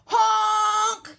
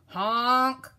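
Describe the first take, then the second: First: Loud, high, blaring honk; yelled honk. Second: Loud honk at ordinary pitch, less blaring; a mildly worried horn cry; scared honk. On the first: Dump truck barges past, yelled honk. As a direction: blast it like a big truck's horn. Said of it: "yelled a dump truck". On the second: Dump truck stuck in mud, understated scared honk. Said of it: "and he sounded scared". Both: A narrator's reading.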